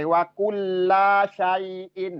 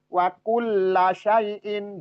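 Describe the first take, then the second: First: The vowel after 'kull' is drawn out. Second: The vowel after 'kull' is short. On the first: The speaker calls it wrong. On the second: The speaker calls it right.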